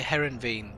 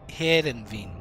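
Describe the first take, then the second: First: It is said with an English pronunciation. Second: It is said with a Dutch pronunciation. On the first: The speaker calls it wrong. "because I'm English, we say Herenveen" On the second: The speaker calls it right. "but it's Herenveen"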